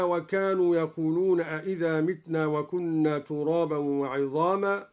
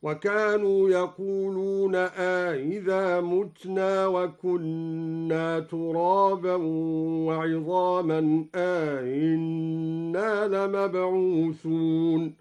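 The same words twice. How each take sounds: First: Said in the usual way. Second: متنا said mutna, with the second hamza of أئذا softened, slow; recited as mutna with tasheel. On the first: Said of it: "قرأ الدوري بتسهيل الهمزة الثانية". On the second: Shown as a demonstration. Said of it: "وقرأ بضم الميم من متنا". (تسهيل الهمزة وضم الميم في متنا)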